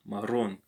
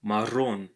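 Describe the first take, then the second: First: "marrón" again, double r trilled; rolled r. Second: 마른 아닌 "marrón", r을 길게 굴려서; "marrón" with a rolled trilled r. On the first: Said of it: "double R always have a roll sound". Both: Shown as a demonstration.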